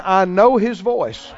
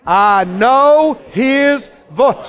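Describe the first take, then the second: First: Said in the usual way. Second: Drawn-out, very slow proclamation; emphatic declaration. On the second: Shown as a demonstration. Preacher getting congregation to say it again, emphatic. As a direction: stretch each word out, pitched up.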